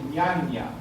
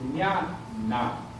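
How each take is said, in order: First: Both nasal sounds are palatal ñ sounds. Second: It starts with ñ and ends with n. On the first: The speaker calls it wrong. "No decir ñaña" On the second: The speaker calls it right. "se pronuncia ñ al principio y n al final"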